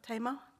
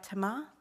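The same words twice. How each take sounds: First: The name is said like the river's name. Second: The name is said unlike the river's name. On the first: The speaker calls it wrong. "not Tamar, despite the river" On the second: The speaker calls it right. "I'm Tamar"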